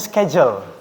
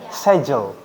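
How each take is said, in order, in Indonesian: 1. Diucapkan dengan aksen Amerika. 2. Diucapkan dengan aksen Inggris. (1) "kalau orang Amerika tadi ngucapinnya schedule" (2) "kalau orang British itu nyebutnya schedule. Jadi K-nya hilang"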